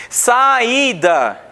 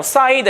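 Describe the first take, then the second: First: "saída" slow, with a long stressed Í; tonic vowel stressed. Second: Said in the usual way. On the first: Shown as a demonstration. Teacher showing that the I in "saída" is tonic, drawn out. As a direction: split "saída" as sa-Í-da, holding the í. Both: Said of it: "ele é tônico".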